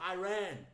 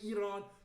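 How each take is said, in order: First: It uses the American pronunciation of the name. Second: It uses the non-American pronunciation of the name. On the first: "you say Iran" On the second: "in America you don't say Iran"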